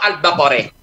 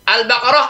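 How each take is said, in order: First: The final vowel is tilted toward an 'e' sound. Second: The final vowel is an open 'a' sound.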